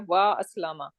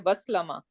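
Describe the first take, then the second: First: A glottal stop separates wa from aslama. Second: The words run together without a glottal stop. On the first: The speaker calls it right. "I would say" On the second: The speaker calls it wrong. "I will not say"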